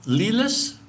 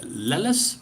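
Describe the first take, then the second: First: "Lilis?" said as LEE-lis, long ee, rising; "Lilis?" with a long ee sound, asking; first guess at name. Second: "Lelis?" said slowly as LEH-lis, short eh, rising; "Lelis?" with a short eh, careful and slow; corrected name. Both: Shown as a demonstration. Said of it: "I don't know how to pronounce your last name".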